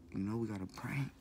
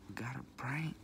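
First: Said in the usual way. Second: A whispered repeat, secretive; whispered echo. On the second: Shown as a demonstration. Vlogger whispering to viewers about pranks, whispered.

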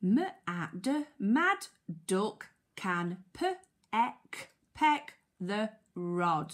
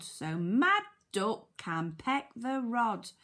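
First: Very slow phonics reading with gaps; sounding out. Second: Said in the usual way. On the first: Shown as a demonstration. Teacher helping children decode the sentence, sounding out. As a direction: break "mad" and "peck" into sounds, then blend them.

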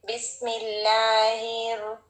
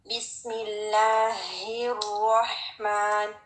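First: बिस्मिल्लाहिर with a light, barely breathed ह; weak ha recitation. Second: बिस्मिल्लाहिर्रहमान slow, with a strong, airy ह. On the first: Teacher shows the wrong way: light ह in बिस्मिल्लाहिर. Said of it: "यूं नहीं पढ़ते जैसे". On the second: Teacher models the right recitation: slow, breathy, strong ह. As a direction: push lots of air through the ह of बिस्मिल्लाहिर्रहमान. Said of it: "ये और strong होना चाहिए". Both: Shown as a demonstration.

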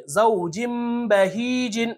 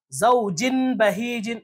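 First: Slow زوجم بہیجن with a long hummed m before b; tanween read as meem. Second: Slow زوجن بہیجن with n before the b; tanween sounded as n. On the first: Teacher applying iqlab, m held in زوجم. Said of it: "میم کی آواز نکالیں گے". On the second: Teacher showing the reading without iqlab, n kept in زوجن. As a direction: keep a clear n at the end of زوجن. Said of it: "اگر تنوین کی آواز نکالیں گے". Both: Shown as a demonstration.

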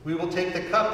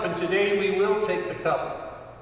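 First: Said in the usual way. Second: Will leaned on firmly, cup let fall; a promise, with will underlined; stress on will. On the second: Shown as a demonstration. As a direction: press down on the word will.

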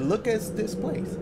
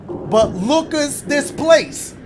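First: Lucas said softer, rising like look at; slow rising Lucas, like look at this place; Lucas pun repeated. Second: Lucas drawn out slow as look at this; slow pun on Lucas. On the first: Explaining the pun to his viewers, soft slow Lucas. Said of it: "I said his name Lucas instead of look at". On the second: Pun for his viewers, stretching Lucas like look at. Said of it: "Y'all see what I'm doing?". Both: Shown as a demonstration.

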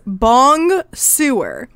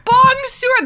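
First: "Bong sewer" read slowly, each syllable as English words; read as spelled. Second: "Bong sewer" squealed high and louder in mockery; mock bad French. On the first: Retold or imitated. Reading Hagrid's line to friends, slow and deliberate. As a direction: sound out "Bong sewer" as Hagrid's bad French. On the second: Friend gleefully echoing Hagrid's bad French, high and loud. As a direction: delight in the silly "Bong sewer". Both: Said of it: "supposed to be bonsoir".

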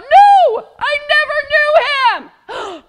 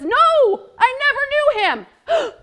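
First: Very high, very loud furious denial; slower, even angrier final shouted denial; angry shout. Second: High, loud protest; much higher, louder denial to the servant girl. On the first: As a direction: yell it out in anger, slowly. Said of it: "Peter, he got so angry". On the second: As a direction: deny it loudly and fast. Peter's second denial. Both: Acted.

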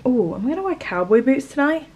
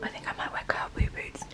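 First: Said in the usual way. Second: Voiceless whisper. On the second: Shown as a demonstration. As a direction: whisper it like a secret.

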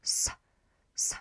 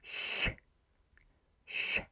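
First: "s" hissed like English snake; a hard, unvoiced hiss "s"; plain Polish s. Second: "sh" soft and hushed, tongue near the palate; a soft unvoiced "sh" hiss; soft Polish ś. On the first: Teacher showing the plain Polish s sound. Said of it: "so letter without the accent is s". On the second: Teacher showing the softer accented s sound. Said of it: "it becomes softer and it becomes". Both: Shown as a demonstration.

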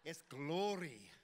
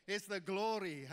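First: Slow, drawn-out Welsh glory; Welsh accent. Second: Loud, proud Welsh take on glory; Welsh accent. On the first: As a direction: savour glory in a Welsh lilt. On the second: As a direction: belt out the glory with Welsh relish. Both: Shown as a demonstration. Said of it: "the word glory sounds great in a Welsh accent".

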